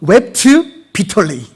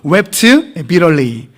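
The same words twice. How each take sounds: First: It is said in a British accent. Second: It is said in an American accent. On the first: "영국식 발음은" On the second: "미국 발음으로는"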